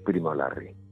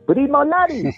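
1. Dicho con voz normal y sonidos R normales. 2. Dicho con voz aguda y flautada, sin sonidos R. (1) "ya no voy a decir Primo Larry" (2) "le quité las R's y luego modulando muy hacia la cabeza, que es aflautando mucho la voz"

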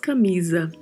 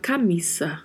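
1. A consoante do meio é um z sonoro. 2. A consoante do meio é um s surdo. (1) "não é como no português que nós falamos" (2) "Em espanhol se fala"

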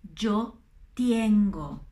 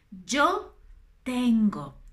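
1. La vocale di tengo scivola in ie. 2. La vocale in tengo è una e semplice. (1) "Gli italiani non fanno altro che dire yo tengo dinero. No, ... No es así" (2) "La prima persona non dittonga assolutamente"

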